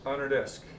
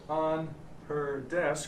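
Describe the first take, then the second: First: The h is dropped, linking into 'ner'. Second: The h in 'her' is clearly pronounced. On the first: The speaker calls it right. "I would say on her desk. The H goes away" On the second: The speaker calls it wrong. "I don't say on her desk"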